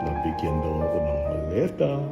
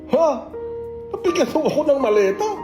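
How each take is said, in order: First: It sounds flirty. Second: It sounds like a natural, surprised reaction.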